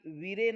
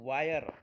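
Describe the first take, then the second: First: The vowel sounds like short 'i'. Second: The vowel sounds like 'eye'. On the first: The speaker calls it wrong. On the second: The speaker calls it right.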